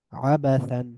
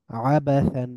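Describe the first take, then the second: No difference in how they are said.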